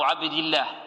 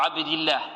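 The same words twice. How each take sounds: First: The L in Allah is thin and light. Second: The same.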